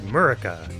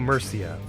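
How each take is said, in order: First: The r comes before an added vowel. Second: The r comes right after the first vowel. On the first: The speaker calls it wrong. "For some reason I thought it said Murica" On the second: The speaker calls it right. "fix my wildly wrong pronunciation of Santiago Murcia"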